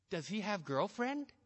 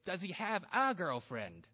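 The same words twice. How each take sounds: First: Put-on "does he have girlfriend" said without the article; mother drops the "a" before girlfriend; broken English. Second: Put-on "a" pointedly stressed before "girlfriend". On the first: A narrator's reading. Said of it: "Your sentence was wrong". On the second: Shown as a demonstration. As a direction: correct her, leaning on "a". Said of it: "You should have said".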